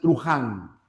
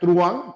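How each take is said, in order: First: A harsh throaty h sound comes before the a. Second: No consonant sound comes before the a. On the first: The speaker calls it wrong. "pronuncian truján ... está mal pronunciado" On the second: The speaker calls it right. "en vez de pronunciar truán"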